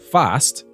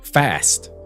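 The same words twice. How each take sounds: First: The word is said in a New Zealand accent. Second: The word is said in an American accent. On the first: "the more Kiwi sound of" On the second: "the more American or even West Country English accent of"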